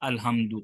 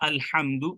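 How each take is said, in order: First: The h is a light, plain breathy sound. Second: The h is a harsh sound from the throat. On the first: The word means death. The speaker calls it wrong. "हा के साथ" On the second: The word means praise. The speaker calls it right. "मैंने कहा अल्हम्दु"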